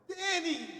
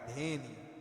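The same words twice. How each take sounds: First: The name is exclaimed with lively excitement. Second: The name is said flatly, without excitement.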